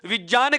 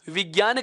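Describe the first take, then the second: First: The middle cluster is said with a j sound. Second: The middle cluster is said with a g sound. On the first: Ordinary listeners would not understand it. "विज्ञान कहोगे तो समझ नहीं पाएगा" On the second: Ordinary listeners would understand it. "विज्ञान कहोगे तो समझ पाएगा"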